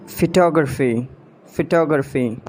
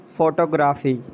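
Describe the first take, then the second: First: "Photography" as fuh-TOG-ruh-fee; British pronunciation. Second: "photography" as FO-to-gra-fee; full O in first syllable of "photography"; mispronounced photography. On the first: Shown as a demonstration. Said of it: "exact pronunciation according to the British". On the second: Acted. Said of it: "you have to correct me".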